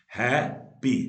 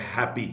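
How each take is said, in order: First: हैप्पी loud and slow as हैप, पी; syllable split. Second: Said in the usual way. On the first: Shown as a demonstration. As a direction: break हैप्पी into two beats with a gap. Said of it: "दो syllable word है". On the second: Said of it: "two syllable word है, जैसे".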